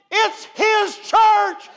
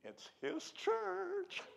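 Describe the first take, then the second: First: "It's his church" shouted slowly, "church" hit hard; loud, drawn-out "It's his church"; shouted emphasis. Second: "It's his church" slow and hushed, leaning on "church"; soft emphasis. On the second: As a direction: let "church" land softly and slowly. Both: Shown as a demonstration. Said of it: "same line repeated, soft then shouted".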